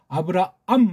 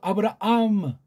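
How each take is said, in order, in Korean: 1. 마지막 'am'은 깔끔하게 끊깁니다. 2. 마지막 'am' 뒤에 작은 꼬리 소리가 붙습니다. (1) "하고 끊지 못하고" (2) "암 뒤에 꼬다리가 붙는다고 했어요"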